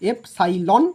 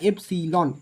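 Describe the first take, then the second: First: The middle syllable sounds like 'sigh'. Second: The middle syllable sounds like 'sill'. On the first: "আমি এফ সাইলন বললাম" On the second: "তুমি এটাকে এফ সিলনও বলতে পারো"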